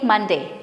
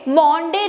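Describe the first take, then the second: First: The first vowel sounds like 'uh'. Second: The first vowel sounds like 'o'. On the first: The speaker calls it right. "It is only मंडे" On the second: The speaker calls it wrong. "मॉन्डे नहीं है"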